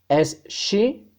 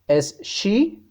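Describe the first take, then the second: Both takes have the same delivery.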